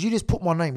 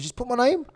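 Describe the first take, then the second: First: Said in the usual way. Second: "Just put my name?" higher, rising on "name"; incredulous question. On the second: Retold or imitated. Retold row over the book, incredulous rise on "name?". Same words echoed as question.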